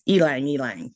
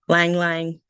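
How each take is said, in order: First: Each half begins with an 'ee' sound before 'lang'. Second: Each half is said simply as 'lang'. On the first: This is the original way of saying it used elsewhere. "the proper version or other country versions is elang elang" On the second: This is the English way of saying it. "English version is lang lang"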